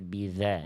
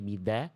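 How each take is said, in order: First: The dh sound flows continuously. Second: The dh sound is stopped, not flowing. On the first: The speaker calls it right. "tapi biza, za, za" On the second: The speaker calls it wrong. "nggak boleh bida"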